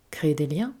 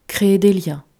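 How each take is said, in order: First: CRÉER DES LIENS softer, with LIENS rising into a question; puzzled echo question. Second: CRÉER DES LIENS stated firmly and louder, falling at the end; explanatory statement. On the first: Little prince repeats the fox's words back, soft puzzled question. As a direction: echo "créer des liens" quietly, asking what it means. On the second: Fox defines the word for the little prince, louder explanatory statement. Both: A narrator's reading.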